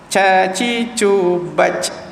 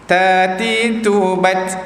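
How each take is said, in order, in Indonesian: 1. Bunyi t terlalu dihembuskan sehingga jadi bunyi ch. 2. Bunyi t hanya ada sedikit hembusan udara. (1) "dia terlampau menghamaskan hingga jadi huruf ca" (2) "Letak di gusi lah atas"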